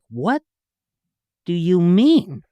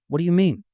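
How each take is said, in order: First: It is said punchily, with a sitcom rhythm. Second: It is said naturally, like single-camera acting.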